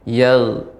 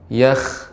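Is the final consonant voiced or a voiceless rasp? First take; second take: voiced; voiceless. First: The final consonant is voiced and smooth. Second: The final consonant is a voiceless scraping sound. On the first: The speaker calls it right. "tapi yal" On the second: The speaker calls it wrong. "enggak boleh yakh"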